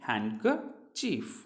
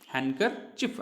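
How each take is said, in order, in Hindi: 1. अंतिम स्वर लंबा है, जैसे 'cheef'। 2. अंतिम स्वर छोटा है, जैसे 'chif'। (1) "सॉरी" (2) "चीफ नहीं है, हैंडकरचिफ"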